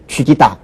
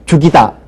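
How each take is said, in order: First: The first syllable has the vowel 'wi'. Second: The first syllable has the vowel 'u'. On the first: The speaker calls it wrong. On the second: The speaker calls it right.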